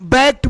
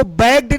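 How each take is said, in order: First: T sound ending बैग्ड; correct pronunciation demo. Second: Voiced d ending on बैग्ड; wrong pronunciation demo. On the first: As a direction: say बैग्ड as bakt. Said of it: "बोलते हैं". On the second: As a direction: say बैग्ड as bagd. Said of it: "इसको बैग्ड नहीं". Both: Shown as a demonstration.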